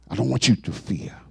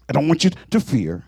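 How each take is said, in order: First: Repeated quietly, tender; hushed reassurance. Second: Said in the usual way. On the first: Acted. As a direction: drop it to a soft, low hush. Repeated softer as God.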